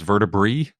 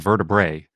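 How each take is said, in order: First: The final vowel sounds like 'ee'. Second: The final vowel sounds like 'ay'. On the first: This follows the technical Latin rule. "technically is vertebrae" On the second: This is how most people commonly say it. "but everybody says vertebrae"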